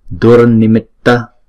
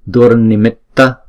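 No difference in how they are said.

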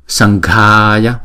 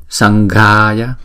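The two takes are said the same way.

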